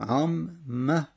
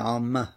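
First: The two m sounds are said separately. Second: The two m sounds merge into one doubled m. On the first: "اولی ساکن، دوی متحرک، پس ادغام صورت میگیره" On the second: "میشه عام مه"

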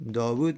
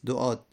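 First: The name is pronounced as Dawud. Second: The name is pronounced as Du'ad. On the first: The speaker calls it wrong. "داوود نیست" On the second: The speaker calls it right.

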